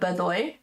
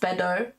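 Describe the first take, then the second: First: The name ends with an 'oy' sound. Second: The name ends with an 'oh' sound. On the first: The speaker calls it right. "but it's uh Bedoy" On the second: The speaker calls it wrong. "people are probably gonna pronounce that name as Bedo"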